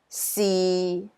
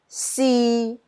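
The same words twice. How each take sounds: First: It is said with Cantonese tone six. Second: It is said with Cantonese tone three.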